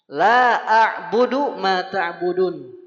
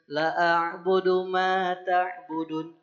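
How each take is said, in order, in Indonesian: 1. Vokal pada 'la' panjang. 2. Vokal pada 'la' pendek. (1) "La-nya panjang" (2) "la-nya dipendekin, itu kan termasuk kesalahan fatal"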